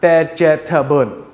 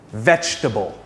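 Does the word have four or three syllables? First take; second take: four; three. First: The word is said with four syllables. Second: The word is said with three syllables. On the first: The speaker calls it wrong. "It's not vegetable" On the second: The speaker calls it right. "This word has three syllables, not four"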